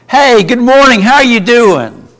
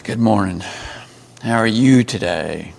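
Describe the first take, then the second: First: Bright, high, loud good morning; cheery greeting. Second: Glum greeting. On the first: Teacher demos a cheerful morning hello, loud and high. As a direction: greet them with big enthusiasm. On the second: Teacher demos a dull, grudging morning hello. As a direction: mumble it like you don't care. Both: Shown as a demonstration. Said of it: "I say the same words, but communicate a totally different message".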